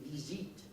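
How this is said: France French accent, with a long ee vowel.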